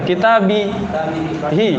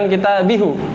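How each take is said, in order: First: The final syllable is said with an i vowel. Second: The final syllable is said with a u vowel. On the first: The speaker calls it right. "Kalau seandainya banyak di kasroh" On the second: The speaker calls it wrong. "jangan kitabihu. Agak sulit diucapkan"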